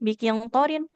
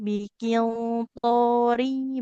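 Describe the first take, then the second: First: The final n is clearly pronounced on its own. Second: The final n merges into the following sound. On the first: The speaker calls it wrong. "bukan biqintorin" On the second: The speaker calls it right. "karena tanunnya bertemu ya"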